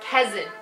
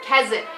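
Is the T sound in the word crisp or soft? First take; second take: soft; soft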